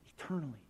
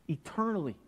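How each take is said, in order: First: Eternally repeated softer and clipped short; hushed repeat; soft echo. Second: Eternally spoken firmly with a falling close; stated with weight; emphatic. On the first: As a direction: let Eternally sink in quietly. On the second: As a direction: land Eternally as a solemn point. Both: Real, not acted.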